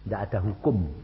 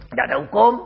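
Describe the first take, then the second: First: Said in the usual way. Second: Louder, insistent repeat of the line; emphatic repeat. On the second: Retold or imitated. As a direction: hammer it home the second time. (mengulang dengan lantang)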